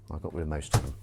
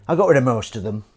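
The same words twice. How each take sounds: First: Said in the usual way. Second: Louder with stress on got; louder, triumphant. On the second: Shown as a demonstration. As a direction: proudly announce got rid. Repeated louder.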